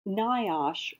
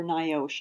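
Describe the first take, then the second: First: Niosh said "NYE-osh", with an open AH in the second syllable; alternative pronunciation. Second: Niosh said "NYE-ohsh", with a long O in the second syllable; alternative pronunciation. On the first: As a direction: say niosh as NYE-ahsh, rhyming its end with "gosh". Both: Shown as a demonstration. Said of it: "I'm not sure how to pronounce it".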